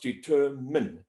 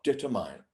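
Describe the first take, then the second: First: The last syllable has a short 'min' sound. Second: The last syllable rhymes with the word 'mine'. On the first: The speaker calls it right. "it's pronounced determine" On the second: The speaker calls it wrong. "not determine"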